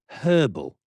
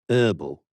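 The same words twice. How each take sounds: First: The word starts with an audible h sound. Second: The word starts with a vowel, no h. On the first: "there is an H there" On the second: "when was the H dropped?"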